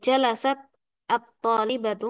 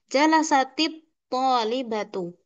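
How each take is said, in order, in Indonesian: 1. Huruf t berakhir mati sebelum kata berikutnya. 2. Huruf t bersambung ke depan dengan tambahan i. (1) "tak yang bersukun" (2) "membacanya dengan berharokat kasrah"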